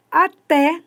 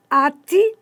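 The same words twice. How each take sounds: First: "até" slowly, stressed on the final té; stress on final syllable. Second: "ate" with the first syllable A stressed. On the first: Teacher contrasting two words, stress on last syllable of "até". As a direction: draw out "até", landing hard on TÉ. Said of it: "a acentuação tônica foi a última". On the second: Teacher contrasting verb atar with a preposition, stress on A in "ate". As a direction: hit the A of "ate", let the te fall weak. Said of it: "a sílaba tônica é esse A". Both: Shown as a demonstration.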